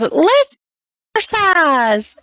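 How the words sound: It is said in a high Mickey Mouse voice.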